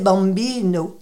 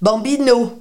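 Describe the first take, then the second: First: The final vowel is swallowed and unstressed. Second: The final syllable is stressed and fully pronounced. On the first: The speaker calls it right. "alors que c'est « bambino ». on avale cette finale" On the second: The speaker calls it wrong. "tout le monde vous dira"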